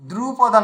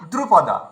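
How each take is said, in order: First: The first syllable's vowel is drawn out long. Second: The first syllable's vowel is kept short. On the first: The speaker calls it wrong. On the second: The speaker calls it right.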